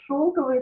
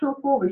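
First: The stress follows the present-day norm. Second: The stress follows the early twentieth-century norm. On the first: This is how people say it today. "Сейчас мы бы сказали" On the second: This was the normal stress a century ago. "он пишет нормально с точки зрения нормы начала 20 века"

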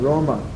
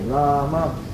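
First: The first vowel sounds like 'o'. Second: The first vowel is a long 'ah'. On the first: The speaker calls it wrong. "In many places they chant Ram Ram. Or Roma" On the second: The speaker calls it right. "it's correct to pronounce Rama. Long-y"

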